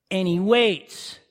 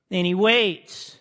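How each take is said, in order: Both takes have the same delivery.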